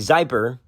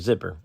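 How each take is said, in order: First: The first vowel is long, like eye. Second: The first vowel is short, like in sit. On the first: The speaker calls it wrong. "You would never say Zyper" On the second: The speaker calls it right. "You would say your zipper"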